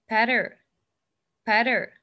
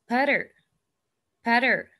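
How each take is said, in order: No difference in how they are said.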